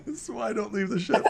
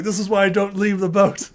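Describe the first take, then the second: First: Higher, fast, giggling repeat; laughing through it. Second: Louder, higher fed-up complaint; exasperated grumble. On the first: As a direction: lose it halfway through the line. Same line, breaking into laughter. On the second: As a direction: grumble like a sailor hauled ashore. Silver voiced, exasperated. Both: Acted.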